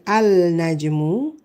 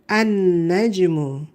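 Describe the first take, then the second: First: The article's L sound is clearly pronounced. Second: The L is silent; the N is doubled instead. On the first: The speaker calls it wrong. "We don't say al najmu" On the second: The speaker calls it right. "the lam is silent"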